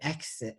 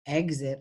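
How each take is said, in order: First: The x is voiceless, sounding like ks. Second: The x is voiced, sounding like gz. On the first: The speaker calls it wrong. "I hear exit all the time" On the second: The speaker calls it right. "I don't hear"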